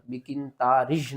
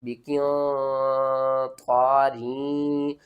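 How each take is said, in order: First: بقنطارج with the را joined to a ج-like sound; wrong reading. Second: بقنطارین very slow, ending in a clear رین; correct recitation. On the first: Teacher showing students the mistake to avoid. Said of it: "بقنطارج نہیں کرنا". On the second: Teacher showing students the right reading, drawn out. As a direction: stretch بقنطارین out, closing on رین. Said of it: "آپ نے پڑھنا ہے را یا دو زیر رین". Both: Shown as a demonstration.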